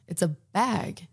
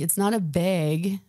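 First: "bag" with a flat short a, as in cat; correcting "bag" to the standard short-a vowel; standard pronunciation. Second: Put-on bag in a thick Minnesota accent, drawn out. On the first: Retold or imitated. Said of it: "my boyfriend said to me". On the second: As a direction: say "bag" with a Minnesota vowel, like "bayg". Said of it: "I had a horrible Minnesota accent".

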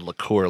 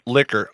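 First: Liqueur, stressed on its second syllable; liqueur pronunciation. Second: Said in the usual way. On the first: Shown as a demonstration. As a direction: say liqueur with the end like "cure". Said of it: "I almost said liqueur like a fucking douchebag". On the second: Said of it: "I almost said liqueur".

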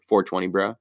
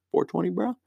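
First: Said in the usual way. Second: Higher, softer repeat of "Four twenty, bro"; goofy stoner echo. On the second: Shown as a demonstration. Joking about the 4.2 rating, higher, softer stoner echo. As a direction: toss off "bro" high and light.

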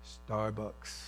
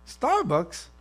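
First: Low, hushed prompting; quiet, certain voice from within; inner voice. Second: High, questioning disbelief; mock-puzzled query; incredulous. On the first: Acted. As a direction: say it low and very soft. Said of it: "the voice again says". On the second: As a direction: balk at it, pitch jumping up. Acts out balking at the voice.

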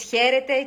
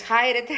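First: Said in the usual way. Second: "χάιρετε" with "ai" as a stressed diphthong; diphthong pronunciation. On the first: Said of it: "Εάν πεις «χαίρετε»". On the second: Shown as a demonstration. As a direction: stress the first vowel of "ai" in "χάιρετε", sounding both. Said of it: "και προφέρεις «χάιρετε»". («χάιρετε» με δίφθογγο «άι», τον τόνο στο άλφα)

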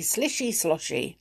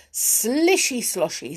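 First: Said in the usual way. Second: Splashy sound word. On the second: A narrator's reading. Water sound read aloud.

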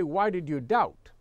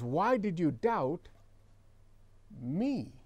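First: Said in the usual way. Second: Slow, with a long pause before "me"; stress on me. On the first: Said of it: "He just didn't say". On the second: Shown as a demonstration. Preacher shows what Jesus really said, "me" isolated after a pause. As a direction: hold back "me", then set it apart, softer. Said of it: "He says".

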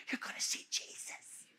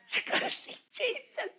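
First: Hushed, voiceless whisper; whispered assurance. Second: Very high, soft, thin half-whisper; hushed wonder. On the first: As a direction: whisper it as a comforting secret. Hushed comfort before death. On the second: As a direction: lift it high and barely voice it. Repeats assurance in thin voice. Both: Acted.

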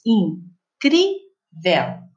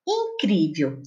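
First: "Incrível" broken into three slow syllables, with pauses between; separado em sílabas. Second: Said in the usual way. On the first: Shown as a demonstration. ("Incrível" bem devagar, sílaba por sílaba) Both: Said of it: "Eu separei as sílabas".

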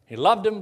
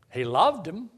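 First: He loved him, all three words punched higher and louder; emphatic repeat. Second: Said in the usual way. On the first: Shown as a demonstration. Preacher pressing the point to the congregation, loud emphatic repeat. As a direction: hit "He loved him" high and loud, like a rebuttal.

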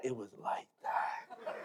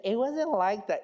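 First: Low, slow, hushed comic insistence; mock insistence. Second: Higher-pitched imitation of a protesting wife; wife's objection. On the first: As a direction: drag it out softly in a low voice. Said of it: "let me lie a little bit more". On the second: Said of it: "she would say".

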